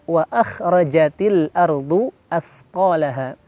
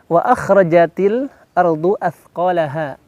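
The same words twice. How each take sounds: Both takes have the same delivery.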